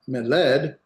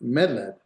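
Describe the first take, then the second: First: The stress is on the last syllable. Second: The stress is on the first syllable. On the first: The speaker calls it wrong. "not medled" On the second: The speaker calls it right. "but medled"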